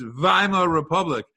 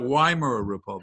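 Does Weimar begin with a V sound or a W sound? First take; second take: V sound; W sound. First: Weimar begins with a V sound. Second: Weimar begins with a W sound. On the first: The speaker calls it right. "wasn't W pronounced like a V? ... At least in German it is" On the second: The speaker calls it wrong. "It's not"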